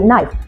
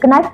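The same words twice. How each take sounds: First: The K sound is left silent. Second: The K sound is pronounced. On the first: The speaker calls it right. "tapi knife" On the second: The speaker calls it wrong. "kita tidak mengatakan knife"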